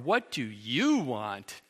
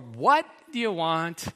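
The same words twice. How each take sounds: First: The question sounds dismissive and contemptuous. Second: The question sounds hurried and impatient. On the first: The listener does not deserve attention. "As in, "You don't deserve my attention."" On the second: The asker wants to get it over with. "As in, "I'm on a tight schedule. Let's get it over with.""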